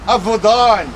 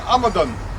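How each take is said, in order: First: Last syllable stressed, the second vowel long. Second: First syllable stressed, the second vowel short. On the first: "the long syllable uh, atta- uh, vowel at, uh, drags the, the, the accent as well" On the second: "they kept the accent in the first syllable and then they shortened the next"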